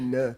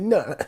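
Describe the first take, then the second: First: The word is said with a low tone. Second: The word is said with a high tone. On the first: It means to take a vow. The speaker calls it right. "you're going to say it low tone" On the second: It means to harm or damage. The speaker calls it wrong. "don't say no"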